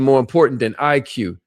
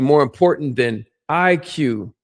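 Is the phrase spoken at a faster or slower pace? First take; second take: faster; slower. First: It is spoken at a normal, quicker pace. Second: It is spoken at a slower, deliberate pace.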